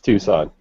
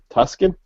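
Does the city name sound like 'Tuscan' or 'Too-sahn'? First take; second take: Too-sahn; Tuscan. First: The name is said like 'Too-sahn', with no K sound. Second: The name is said like 'Tuscan', with a K sound. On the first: The speaker calls it right. "no, no, no, that's Tucson" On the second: The speaker calls it wrong. "She's like"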